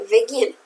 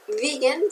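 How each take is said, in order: First: "begin" stressed on its second syllable, be-GIN. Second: "begin" wrongly stressed on the first syllable, BE-gin. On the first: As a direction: correct "begin" with weight on GIN. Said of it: "con el acento en la segunda sílaba". ("begin" con acento en la segunda sílaba) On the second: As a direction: put the weight up front in "begin", BE-gin. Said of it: "no begin". ("begin" con el acento equivocado en la primera sílaba) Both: Shown as a demonstration.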